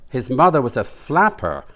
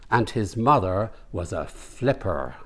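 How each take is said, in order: First: "flapper" said with the a of flap; mother was a "flapper", the a open and clear; "flapper" with the a vowel of cat; corrected word flapper. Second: "flipper" said with a short i vowel, like the dolphin; mother was a "flipper", the i in flip clear; wrong word flipper. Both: Acted. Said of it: "you mean flapper".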